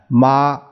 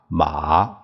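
First: The syllable is said with the first tone. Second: The syllable is said with the third tone. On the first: "这一二三四声" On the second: "这一二三四声"

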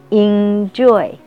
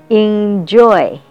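Both takes have the same delivery.

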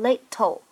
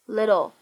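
First: The middle t is a clear, crisp t sound. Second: The middle t is a quick flapped sound. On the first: The speaker calls it wrong. "我们不会读成little" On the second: The speaker calls it right. "它有一个非常典型的闪音的处理，而会读成little"

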